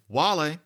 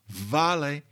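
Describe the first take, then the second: First: The word begins with a W sound. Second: The word begins with a V sound. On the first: This is the older Latin pronunciation. "you're putting your lips almost together with the w" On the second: This is the late Latin pronunciation. "That's how you got a V in late Latin"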